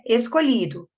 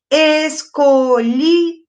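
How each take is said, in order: First: Said in the usual way. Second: "Escolhido" slowly split, es-co-lhi-do, each beat strong; syllable by syllable. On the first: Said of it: "A palavra é escolhido". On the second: Shown as a demonstration. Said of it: "Quantas sílabas?".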